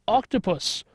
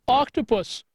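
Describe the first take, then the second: Both takes have the same delivery.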